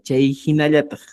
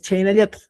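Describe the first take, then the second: First: The words stay separate with the h sound kept. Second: The words merge and the h sound drops. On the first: This is the full proper form. "pero sería Chei Hinayatag" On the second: This is how it often sounds in casual speech. "Dices Cheinayatag"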